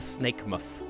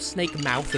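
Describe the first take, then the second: First: The vowel in 'mouth' is said quickly and reduced. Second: The vowel in 'mouth' is said fully and carefully.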